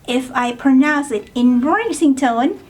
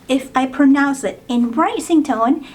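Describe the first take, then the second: Both takes have the same delivery.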